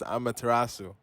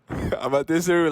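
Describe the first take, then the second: First: The name ends with the syllables 'rasu'. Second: The name ends with the syllables 'seru'. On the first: The speaker calls it right. "this is actually pronounced Amaterasu" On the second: The speaker calls it wrong. "I actually mispronounced the name of the project"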